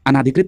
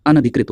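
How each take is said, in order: First: अनाधिकृत with a long aa, a-naa-dhikrit; wrong long vowel. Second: अनधिकृत with a short na, a-na-dhikrit; correct short vowel. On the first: Teacher rejecting the common mistake, अनाधिकृत with long naa. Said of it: "अनाधिकृत नहीं होता है". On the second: Teacher correcting students, अनधिकृत with short na. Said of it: "अनधिकृत होता है". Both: Shown as a demonstration.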